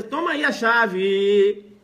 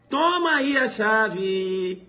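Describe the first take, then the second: First: Higher, louder, slow and easygoing; trusting driver. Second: Sung out slowly, higher and louder; sung, singsong. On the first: Driver handing car key to fake valet, higher and relaxed. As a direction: toss him the key, totally unsuspecting. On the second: Teacher singing the driver's handover to the class, slow and higher. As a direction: croon "Toma aí a chave" like a little tune. Same line repeated, sung. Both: Acted.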